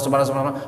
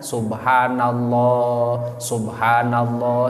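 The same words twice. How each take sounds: First: It is said quickly and hurriedly. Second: It is said slowly and with feeling. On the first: The speaker calls it wrong. "urang sok rada gancang nih" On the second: The speaker calls it right. "perbaiki cara bacana ... sing meunang rasana"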